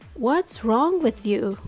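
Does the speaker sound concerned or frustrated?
concerned. It sounds concerned and caring.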